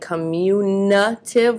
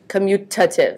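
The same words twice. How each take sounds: First: An N sound is added before the last syllable. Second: No N sound comes before the last syllable. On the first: The speaker calls it wrong. "with an N in there" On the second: The speaker calls it right. "No N"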